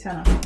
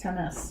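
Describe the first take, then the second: First: The word ends without the s sound. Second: The word ends with a clear s sound. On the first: "I say tenna" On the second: "I don't say tennis"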